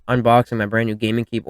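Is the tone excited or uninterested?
uninterested. It is said flatly, as if not caring.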